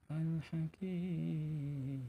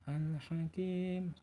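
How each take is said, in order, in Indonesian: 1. Huruf mad dibaca panjang enam harakat. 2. Huruf mad dibaca panjang dua harakat. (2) "dua rakaat"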